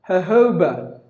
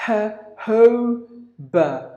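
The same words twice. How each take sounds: First: Said in the usual way. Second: "Jojoba" very slowly as huh, hoh, buh; three separate beats on "Jojoba"; syllable by syllable. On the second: Shown as a demonstration. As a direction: breathe an H on each J of "Jojoba", pausing between syllables. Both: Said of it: "and then put two H's".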